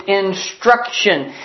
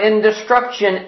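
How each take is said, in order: First: "instruction" slowly, with no "di" after "in"; corrected word. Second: "in destruction" with a "di" syllable after "in"; wrong word. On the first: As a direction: say "instruction" slowly in three clear syllables. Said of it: "It's instruction". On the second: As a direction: misread it as two words, "in destruction". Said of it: "It's not in destruction". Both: Acted.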